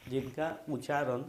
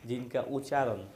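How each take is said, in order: Both takes have the same delivery.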